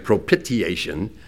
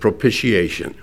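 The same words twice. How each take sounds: First: The word is sounded out as it is spelled. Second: The word is said in its usual spoken form. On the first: The speaker calls it wrong. "It looks like propitiation" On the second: The speaker calls it right. "but you pronounce it propitiation"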